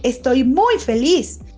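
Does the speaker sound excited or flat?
excited. It is said with lively, happy energy. The happiness is clearly felt. "Cambia el tono, cambia el ritmo"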